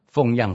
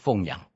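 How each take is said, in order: First: The second syllable has a falling fourth tone. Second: The second syllable has a dipping third tone. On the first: It means supporting one's parents, from below to above. The speaker calls it right. "要读第四音" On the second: It means raising someone, from above to below. The speaker calls it wrong. "不是奉养"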